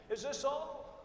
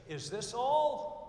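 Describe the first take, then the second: First: Put-on spoiled kid. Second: Slow, loud whine, much higher; spoiled kid. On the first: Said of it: "You all know that kid?". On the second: Retold or imitated. Spoiled kid whines to mother at Christmas, slow and loud. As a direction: whine like a disappointed spoiled child. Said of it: "looks up at his mother and says".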